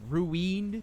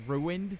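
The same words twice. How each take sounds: First: "ruined" with the second syllable drawn out like "weened"; deliberate mispronunciation. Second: Said in the usual way. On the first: Retold or imitated. Quoting Stewie's mispronunciation on purpose, "ruined" as "roo-weend". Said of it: "he's gotta be mispronouncing shit on purpose". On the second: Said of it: "instead of".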